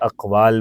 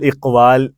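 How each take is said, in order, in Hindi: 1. यह शब्द 'a' स्वर से शुरू होता है। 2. यह शब्द 'i' स्वर से शुरू होता है। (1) "हम उसको ज़बर से बोलेंगे" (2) "ऐसे नहीं बोलेंगे"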